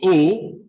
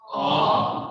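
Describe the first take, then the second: First: The vowel is said with a closed mouth. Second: The vowel is said with an open mouth. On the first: "or closed O" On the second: "open O, everybody say O"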